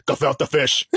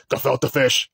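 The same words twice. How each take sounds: First: Put-on light New York accent on "Gefilte fish". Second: Put-on New York accent. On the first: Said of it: "That's it. That's the voice". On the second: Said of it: "he got this New York accent".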